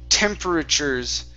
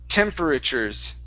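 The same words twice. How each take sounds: The two takes are said the same way.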